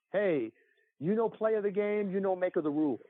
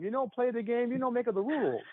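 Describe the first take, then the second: First: Dad's hammed-up Italian accent; mock Italian accent, jokey; horrible Italian accent. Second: Higher hammed-up Italian accent; jokey Italian accent; mock Italian accent. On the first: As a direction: imitate a bad Italian accent, higher. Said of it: "in a horrible Italian accent". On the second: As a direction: quote dad's line in a bad Italian accent. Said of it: "I use that line all the time".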